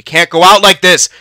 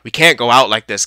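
First: Louder, higher, urgent; raised voice begging the team; loud urgent plea. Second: Said in the usual way. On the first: Real, not acted. Repeated, now loud and urgent.

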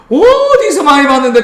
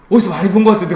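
First: 어디서 stretched long on a high held note. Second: Said in the usual way. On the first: Pretend. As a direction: hold the first vowel of 어디서 high and long. Exaggerated repeat prompting recall of word.

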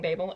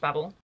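First: Babel said as "BAY-bul"; Babel pronounced to rhyme with "table"; non-American pronunciation. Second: Babel said the American way, like "babble"; Babel pronounced to rhyme with "rabble"; American pronunciation. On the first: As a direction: say Babel with a long a, as in "baby". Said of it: "I'm not American, so I'm saying". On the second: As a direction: say Babel with a short a, as in "cat". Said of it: "That is the American pronunciation". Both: Shown as a demonstration.

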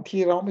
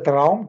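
First: T-Raum said as the letter T, then Raum; split word. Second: Said in the usual way. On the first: Shown as a demonstration. (T-Raum getrennt gesprochen, als „Tee-Raum“) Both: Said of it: "T-Raum ist ein Spiegelraum".

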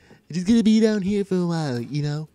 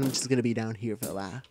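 First: Loud put-on cartoon character voice; Stewie Griffin. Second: Said in the usual way. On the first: Gamer imitating a Family Guy character, put-on voice. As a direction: say it louder, in character. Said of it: "that was my impression of, uh, Stewie Griffin". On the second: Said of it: "Why do I sound like Stewie Griffin?".

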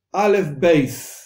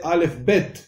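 First: "beis" with ei glide and final s. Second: "bet" with short e and final t; modern Hebrew bet. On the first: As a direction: say "aleph, beis" slowly, ending on s. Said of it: "Pero nosotros decimos beis". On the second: Teacher quotes modern Hebrew usage, bet. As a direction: say "aleph, bet" ending on a t. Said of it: "en el hebreo moderno". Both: Shown as a demonstration.

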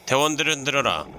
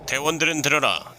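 First: Quick loud command repeat; squad orders, faster. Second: Loud, high military commander; squad orders. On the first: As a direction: rattle off the order again. Mock military squad orders. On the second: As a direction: bark orders to the troops. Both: Pretend.

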